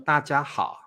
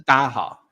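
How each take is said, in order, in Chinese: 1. 每个音节都分开说，清楚明白。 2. 音节连在一起，说得很快，含糊不清。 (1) "我们不会这样说大家好，除非很正式的场合" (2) "我们台湾一定是大家好"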